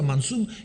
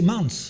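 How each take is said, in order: First: The word ends with a full -um syllable. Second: The word ends after the s, without -um. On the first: This is the spelling, not the period pronunciation. The speaker calls it wrong. "il ne prononçait pas comme ça" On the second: This is how speakers of the time said it. The speaker calls it right. "il prononçait mans"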